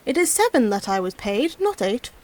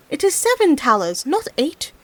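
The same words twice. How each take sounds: First: Said in the usual way. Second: Shouting. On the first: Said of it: "he said to himself". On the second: Acted. Peasant correcting the frogs across the water, mild shout. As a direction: drive home the number at the frogs. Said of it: "he shouted to them".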